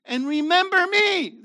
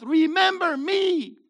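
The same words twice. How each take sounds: First: High and loud quoting Yeshua; preacher quoting Jesus, high and loud; loud quote. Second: Slow, loud, high shout; preacher shouting Jesus' words to the congregation; shouted climax. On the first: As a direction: ring it out from the pulpit. Quoting Yeshua mid-sermon. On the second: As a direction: hammer home every word. Climax quoting Yeshua. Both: Acted.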